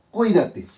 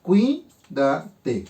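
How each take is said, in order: First: Said in the usual way. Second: "Cuídate" split as cuí - da - te, with pauses; división silábica. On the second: Shown as a demonstration. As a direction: say "Cuídate" syllable by syllable, cuí kept as one. ("Cuídate" separado en sílabas: cuí - da - te) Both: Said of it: "Hago mi división silábica".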